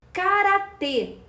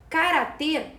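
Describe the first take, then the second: First: "Karatê" dito devagar e mais alto, com força no "tê" final; stressed final syllable. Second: Said in the usual way. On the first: Shown as a demonstration. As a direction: alongue "Karatê" e bata no "tê". ("Karatê" lento e enfático na última sílaba) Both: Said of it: "Karatê é uma oxítona".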